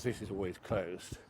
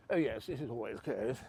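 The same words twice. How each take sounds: First: Said in the usual way. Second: Put-on upper-class English accent; mock posh accent. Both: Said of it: "Oh, sorry, my voice again".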